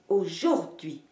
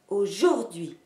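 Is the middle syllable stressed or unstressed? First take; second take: stressed; stressed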